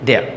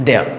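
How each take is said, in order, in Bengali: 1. এটা একটি সংকুচিত শব্দ হিসেবে বলা হয়। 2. এটা একটি সংকুচিত শব্দ হিসেবে বলা হয়।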